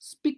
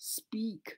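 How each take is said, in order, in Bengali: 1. শব্দের স্বরধ্বনিটি হ্রস্ব। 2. শব্দের স্বরধ্বনিটি দীর্ঘ। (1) "স্পিক নয়" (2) "উচ্চারণটা হবে স্পিক"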